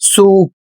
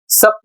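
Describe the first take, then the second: First: The vowel is a long 'oo' sound. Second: The vowel is a short 'uh' sound. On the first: The speaker calls it right. "इसे पढ़ा जाएगा सूप" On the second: The speaker calls it wrong. "इसे सप नहीं पढ़ा जा रहा है"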